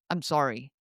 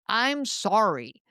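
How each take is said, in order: First: It is muttered quietly under the breath. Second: It is said with a snippy attitude.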